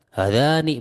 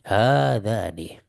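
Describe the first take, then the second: First: The first two vowels are short. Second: The first two vowels are held long. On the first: The speaker calls it wrong. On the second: The speaker calls it right. "tapi hadzani"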